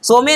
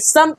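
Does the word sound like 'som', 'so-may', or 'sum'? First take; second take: so-may; sum. First: A rounded 'o' with an extra final vowel. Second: The vowel is a short unrounded 'u' sound. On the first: The speaker calls it wrong. "सोमे नहीं" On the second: The speaker calls it right. "सम पढ़ते हैं"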